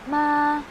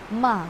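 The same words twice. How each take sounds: First: The pitch stays level and flat. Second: The pitch dips down, then rises. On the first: "yung voice mo na flat lang din siya" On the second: "dipping and rising tone... pababa, and then pataas"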